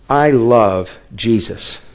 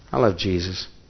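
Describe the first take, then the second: First: It is said in a sincere, earnest tone. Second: It is said in an insincere, doubtful tone. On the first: The speaker truly means it. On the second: The speaker does not really believe it. "what did I say that made you think I don't believe that?"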